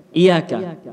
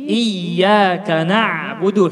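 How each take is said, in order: First: "Iyyaka" with a quick single y, as "iyaka"; missing doubled consonant. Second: "iyyaka na'budu" slowly, leaning on a long yy; pressed doubled y. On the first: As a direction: skim over the y in Iyyaka. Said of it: "mungkin di antara kita yang membaca". (Iyyaka tanpa tasydid) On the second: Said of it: "membaca dengan suara tertekan". (iyyaka na'budu dengan suara tertekan) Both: Shown as a demonstration.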